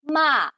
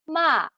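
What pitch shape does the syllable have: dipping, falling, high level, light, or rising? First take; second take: falling; falling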